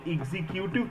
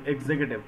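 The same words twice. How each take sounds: First: The word starts like the word 'execute'. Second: The word starts 'egzek' and moves straight to 'tiv'. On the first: The speaker calls it wrong. "कई लोग इसे एग्जीक्यूटिव pronounce करते हैं" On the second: The speaker calls it right. "एग्जेग, और एग्जेक के बाद सीधे टिव"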